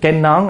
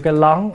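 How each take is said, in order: First: The word begins with an N sound. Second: The word begins with an L sound. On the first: The speaker calls it right. "Hễ N ổng ra L" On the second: The speaker calls it wrong. "ổng kêu cái lón"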